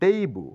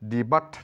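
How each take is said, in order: First: The final t is silent. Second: The final t is pronounced. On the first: The speaker calls it right. "এটা বলবো" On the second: The speaker calls it wrong. "নয়"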